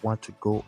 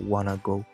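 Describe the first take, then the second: First: Want and to are said as separate full words. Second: Want and to are merged into wanna.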